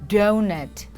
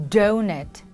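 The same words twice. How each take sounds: No difference in how they are said.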